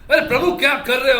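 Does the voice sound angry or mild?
angry. It is shouted loudly in an angry voice. Someone is publicly scolding you. The speaker calls it right. "ऐसा किसी ने आप पे चिल्ला दिया"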